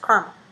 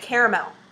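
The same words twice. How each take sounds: First: No A vowel is heard in the middle. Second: An A vowel is heard in the middle. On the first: The speaker calls it right. "there's no A in there. It's caramel" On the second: The speaker calls it wrong. "people say caramel"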